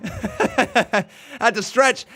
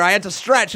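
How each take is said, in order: First: Laughing. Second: Said in the usual way. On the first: Real, not acted. Laughing repeat of own excuse.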